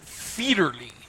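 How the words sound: The name is said with a German pronunciation. "They pronounce it Fiederly in uh, in Germany"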